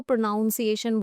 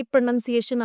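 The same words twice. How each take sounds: First: "प्रोनाउंसिएशन" with noun in the second syllable; common mispronunciation. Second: "प्रोनंसिएशन" with a short nun in the second syllable; correct pronunciation. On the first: Teacher quotes a common mistake, "प्रोनाउंसिएशन" with noun. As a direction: say "प्रोनाउंसिएशन" as if from pronounce. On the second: Teacher shows students the right word, correct "प्रोनंसिएशन" with nun. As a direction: say "प्रोनंसिएशन" with nun, never noun. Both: Shown as a demonstration. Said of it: "बहुत लोग इसको प्रोनाउंसिएशन बोलते हैं".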